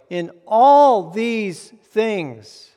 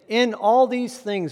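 First: The stress is on the word all. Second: The stress is on the word in. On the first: The victory covers every kind of trouble. "All these things, what things?" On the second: The victory comes during the trouble, not after it. "I might start with the word in"

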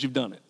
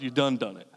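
First: It is said in a plain, neutral accent. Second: It is said in a Southern US accent.

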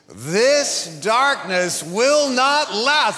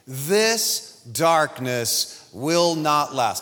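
First: It is said loudly. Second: It is said quietly.

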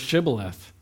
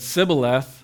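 First: The word begins with a 'sh' sound. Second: The word begins with an 's' sound. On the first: The speaker belongs to the trusted tribe. The speaker calls it right. "you had to say the word shibboleth" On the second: The speaker is from the enemy tribe. The speaker calls it wrong. "you can't say the sh sound"

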